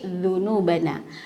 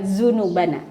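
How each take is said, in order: First: The word begins with a voiced 'th' sound. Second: The word begins with a plain z sound. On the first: The speaker calls it right. "tapi dzunubana" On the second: The speaker calls it wrong. "jadi bukan zunubana"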